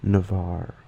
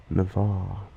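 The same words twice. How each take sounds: First: Navarre ending in a pronounced r; name with its R. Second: Navarre ending in an open "ah", no r; non-rhotic own pronunciation. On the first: Correcting what North American friends hear, R sounded. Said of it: "instead of". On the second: Telling how they say their name, dropped R. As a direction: say Navarre as "na-VAH". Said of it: "when I say my name". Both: Shown as a demonstration.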